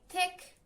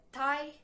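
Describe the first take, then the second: First: Said in the usual way. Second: THICK said wrongly as "Thai", drawn out; mispronounced thick. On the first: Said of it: "I wanted to say thick". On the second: Shown as a demonstration. Student owning up to her slip in class, mispronounced "Thai". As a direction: say "Thai" where "thick" was meant. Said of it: "but instead of this, I said".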